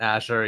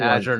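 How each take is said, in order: First: The middle consonant is a voiceless 'sh' sound. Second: The middle consonant is a voiced 'zh' sound. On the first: The speaker calls it wrong. "not Asher" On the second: The speaker calls it right. "F Y I, it's Azure"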